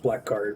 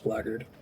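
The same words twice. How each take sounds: First: The word is said as spelled, black plus guard. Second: The word is said in a reduced, blended form. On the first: This is how the speaker used to say it. The speaker calls it wrong. "I thought it was blackguard" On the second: This is the real pronunciation. The speaker calls it right. "but it's blackguard"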